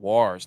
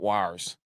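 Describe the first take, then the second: First: The vowel sounds like 'wars'. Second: The vowel sounds like 'wires'. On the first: The speaker calls it right. "Wars, not wires" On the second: The speaker calls it wrong. "not wires"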